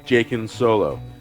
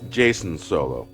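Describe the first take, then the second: First: The middle consonant of the name is a K sound. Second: The middle consonant of the name is an S sound. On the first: The speaker calls it wrong. "the C is pronounced as um, a K" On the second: The speaker calls it right. "the author meant for it to be pronounced Jason"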